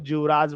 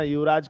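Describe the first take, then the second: First: The word begins with a j sound. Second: The word begins with a y sound.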